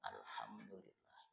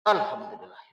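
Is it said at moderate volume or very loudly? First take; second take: moderate; very loudly. First: It is said aloud at moderate volume. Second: It is said very loudly, almost shouted.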